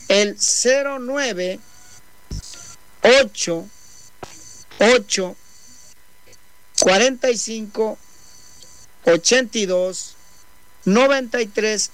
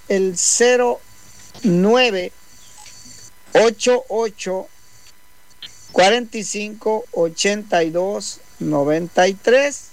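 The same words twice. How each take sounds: First: The number is said more slowly. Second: The number is said at normal speed.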